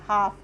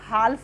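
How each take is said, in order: First: The L sound is left out. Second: The L sound is clearly pronounced. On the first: The speaker calls it right. "होता है हाफ" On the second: The speaker calls it wrong. "हाल्फ नहीं होता"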